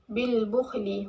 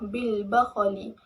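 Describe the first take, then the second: First: The b has 'u'; the kh has no vowel. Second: Both the b and kh carry an 'a' vowel. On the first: "dhammahkan ba, sukunkan kha" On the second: "akan baca dengan fathah kan ba dan kha"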